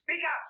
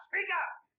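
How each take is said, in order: First: Higher and louder, barking the order; shouted demand. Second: Shouted demand. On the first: Deaf commissioner shouts at the salesman, higher and louder. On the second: Repeated louder demand. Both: Acted. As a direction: shout it across the room.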